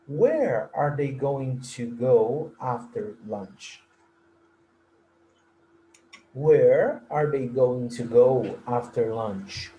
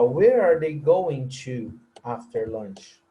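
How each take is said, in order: First: Slow model question. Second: Slow model question, go dropped. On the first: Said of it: "Nessa frase". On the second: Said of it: "Eu posso falar". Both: Shown as a demonstration.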